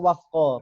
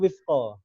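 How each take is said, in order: First: The first vowel is an 'a' sound. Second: The first vowel is an 'i' sound. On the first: The speaker calls it wrong. "Teman-teman sering pakai wafqa" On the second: The speaker calls it right. "padahal yang betul itu wifqa"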